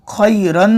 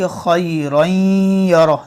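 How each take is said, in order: First: खैरन with a plain clear n; crisp n at the end of खैरन; wrong reading. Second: खैरन यरा with the noon hummed in the nose; slow खैरन यरा, nasal n gliding into यरा; nasal ghunna. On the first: Teacher showing the wrong reading of खैरन. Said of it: "खैरन नहीं". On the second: Teacher demonstrating the correct nasal reading. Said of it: "नाक में आवाज़ गुन्ना होगा". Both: Shown as a demonstration.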